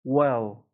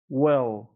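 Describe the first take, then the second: The two takes are said the same way.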